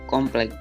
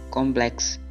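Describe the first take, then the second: First: The word ends with a k sound. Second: The word ends with a ks sound. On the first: The speaker is uneducated. The speaker calls it wrong. "Ragam tidak terpelajar" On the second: The speaker is educated. The speaker calls it right. "Ragam bahasa terpelajar"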